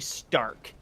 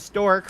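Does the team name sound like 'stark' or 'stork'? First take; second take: stark; stork. First: The vowel sounds like the one in 'car'. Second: The vowel sounds like the one in 'fork'. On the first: The speaker calls it right. "I believe it's actually Stark is how Crow says it in the show" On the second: The speaker calls it wrong. "I used to think it was Team Stork"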